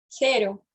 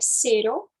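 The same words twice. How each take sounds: First: The first sound is a lisped th sound. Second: The first sound is a plain s sound. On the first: This is how it is said in Spain. "Na Espanha, eles pronunciam com a língua lá em cima" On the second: This is how it is said in Latin America. "se você pronuncia cero, também está correto"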